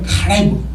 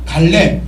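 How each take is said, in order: First: It is said with a throaty, guttural sound. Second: It is said with plain Korean sounds. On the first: "히브리어로는 카레브 그렇게 이렇게 읽을 겁니다"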